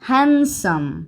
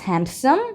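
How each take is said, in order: First: No 'd' sound is pronounced before 'some'. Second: A 'd' sound is pronounced before 'some'. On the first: The speaker calls it right. "এই ডিটাও silent" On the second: The speaker calls it wrong. "No"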